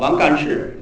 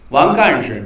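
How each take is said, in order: First: The syllable 事 is fully stressed. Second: The syllable 事 is light and unstressed. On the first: It sounds like someone who does things. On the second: It names an official title.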